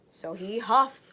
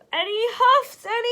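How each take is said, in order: First: Said in the usual way. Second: High, loud, breathless last huff; one final desperate blow; exhausted huff. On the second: Acted. Wolf's last effort at the brick house, straining and breathless. Wolf gasping from blowing.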